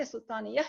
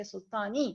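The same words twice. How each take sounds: First: Sultaniya with a final ya sound added; wrong ending. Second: Sultani ending cleanly on the i; sultani, short clean ending; correct form. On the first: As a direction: sultaniya said with the added ending, as a learner should not. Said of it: "you would not say sultaniya". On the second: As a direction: sultani said without any ya ending, as the right form. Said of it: "you say sultani". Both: Shown as a demonstration.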